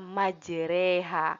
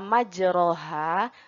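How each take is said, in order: First: The vowel after r leans toward 'e'. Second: The vowel after r is an open 'a'. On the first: "berubah menjadi dibaca majreha" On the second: "kata majroha"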